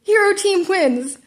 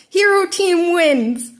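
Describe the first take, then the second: First: Announcer yell. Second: Slow, loud, crackly loudspeaker call; yelled over speaker. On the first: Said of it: "All Might yelled". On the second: All Might announces the winner over a crackling speaker. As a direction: boom it through a crackling speaker. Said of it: "All Might yelled, voice crackling on the speaker". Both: Acted.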